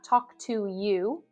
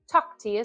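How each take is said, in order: First: Each word is said fully and separately. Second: The words are reduced and run together. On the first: The speaker calls it wrong. "Not talk to you" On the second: The speaker calls it right. "but talk to you soon"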